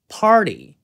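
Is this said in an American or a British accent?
American. American accent, the t slides by softly. "미국식으로는 party, party 이렇게 T를 그냥 넘기는데요"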